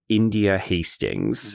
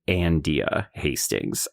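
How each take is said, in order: First: The name begins with a plain 'in' sound. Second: The name begins with an 'an' sound, twanged. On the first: "the daughter's name is India Hastings" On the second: "they were always pronouncing it Andia Hastings"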